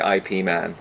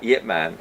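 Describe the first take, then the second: First: The first part is said as two letters. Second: The first part is said as one syllable. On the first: The speaker calls it wrong. "people would say I P man" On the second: The speaker calls it right. "if you kept it as yip man"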